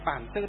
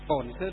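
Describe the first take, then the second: First: The first word is said as Bản. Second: The first word is said as Bổn. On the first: This is the northern reading. "Miền Bắc chúng ta đọc là" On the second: This is the southern reading. "thì miền Nam họ đọc là gì"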